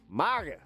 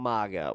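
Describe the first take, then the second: First: It is said in a put-on character voice. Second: It is said in his normal voice.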